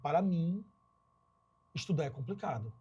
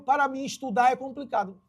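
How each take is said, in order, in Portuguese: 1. Há uma pausa depois de para mim. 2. Não há pausa depois de para mim. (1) "quando eu dou uma pausa, é o para mim" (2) "Fica meio que, que forçado"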